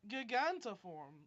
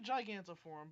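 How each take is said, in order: First: The word starts like the Japanese-style 'giganto'. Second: The word is said the usual English way. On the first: "pronounced it the way that Monkey D. Luffy says Giganto Pistol" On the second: "It might be Gigantiform"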